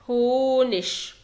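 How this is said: The word ends with a soft 'ch' sound. This is the form used in Germany. "لو انا في دويتش لاند وبتعلم دويتش هقول هونش"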